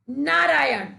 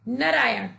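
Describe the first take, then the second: First: नारायण said with a long first aa, नाराय; correct pronunciation. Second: नारायण said with a short first a, नरायण; wrong pronunciation. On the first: Teacher showing children the right way, long aa. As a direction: stretch the first vowel of नारायण. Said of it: "ऐसा कहकर उच्चारण करते हैं". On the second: Teacher showing children the wrong way, short vowel first. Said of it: "यहाँ पर अशुद्ध शब्द है". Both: Shown as a demonstration.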